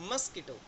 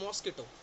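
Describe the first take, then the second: First: The first vowel sounds like 'uh'. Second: The first vowel sounds like 'aw'. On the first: The speaker calls it right. "उसको बोला जाता है मस्किटो" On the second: The speaker calls it wrong. "इसको हम बोलते हैं मॉस्किटो"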